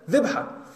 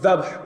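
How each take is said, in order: First: The first vowel is an 'i' sound. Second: The first vowel is an 'a' sound. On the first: "it doesn't say dhabh, it says dhibha" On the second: "With a fatha on the dhal"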